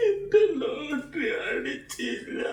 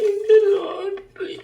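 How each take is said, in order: First: Crying. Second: Put-on a child howling over his lost lottery; crying. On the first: Acted. കരയരുത്. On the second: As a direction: wail it out, slowly. ഒന്നും കരയരുത് ട്ടോ.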